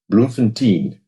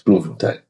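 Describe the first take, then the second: First: The name is said with a non-local pronunciation. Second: The name is said with the local pronunciation. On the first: The speaker calls it wrong. "people talking about Bloemfontein" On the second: The speaker calls it right. "no, no, no, no, it's Bloemfontein"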